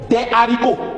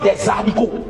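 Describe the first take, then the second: First: No z sound links the two words. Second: A z sound links the two words. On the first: The speaker calls it right. "On ne doit jamais faire la liaison. Donc on dit" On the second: The speaker calls it wrong. "et non des haricots"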